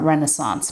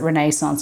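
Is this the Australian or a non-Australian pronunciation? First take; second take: non-Australian; Australian. First: It is said with a non-Australian pronunciation. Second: It is said with an Australian pronunciation. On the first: "not Renaissance" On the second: "in Australia we pronounce it Renaissance"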